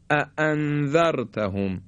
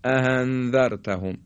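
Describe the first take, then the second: First: اَأَنذَرْتَهُمْ with two clean glottal stops; separate heavy hamzas. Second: اَأَنذَرْتَهُمْ with the second hamza softened to an h. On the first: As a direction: give each hamza in اَأَنذَرْتَهُمْ its own firm attack. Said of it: "ادا بکنیم هر دو رو با تسلط". (اَأَنذَرْتَهُمْ با دو همزهٔ جدا و سنگین) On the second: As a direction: let the middle of اَأَنذَرْتَهُمْ slip into a breathy h. (اَأَنذَرْتَهُمْ با همزهٔ شبیه ه) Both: Shown as a demonstration.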